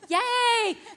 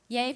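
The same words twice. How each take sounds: First: The word is said brightly, with real enthusiasm. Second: The word is said flatly, without enthusiasm. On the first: The speaker calls it right. "I really do mean yay" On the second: The speaker calls it wrong. "That didn't sound like a yay"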